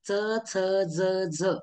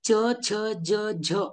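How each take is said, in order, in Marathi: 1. व्यंजनांचं उच्चारण मराठी पद्धतीने केलं आहे. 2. व्यंजनांचं उच्चारण संस्कृत पद्धतीने केलं आहे. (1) "मराठीमध्ये च, छ, ज, झ असं उच्चारण केलं जातं" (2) "संस्कृतमध्ये च, छ, ज, झ असं उच्चारण केलं जातं"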